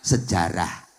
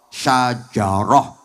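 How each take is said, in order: First: It is said with Indonesian sounds, sejarah. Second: It is said with Arabic sounds, syajaroh. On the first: This is the easier local form. "diambil mudahnya sejarah" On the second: This is the original Arabic form.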